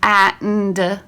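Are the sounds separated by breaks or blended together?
breaks. The sounds are said with breaks between them. The speaker calls it wrong.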